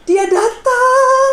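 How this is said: It is said in a frightening, ominous tone.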